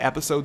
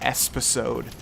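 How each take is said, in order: First: It is said with no extra s sound. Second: An extra s sound comes before the p. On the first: The speaker calls it right. "I've said episode so many times" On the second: The speaker calls it wrong. "I mispronounce it like I say espisode"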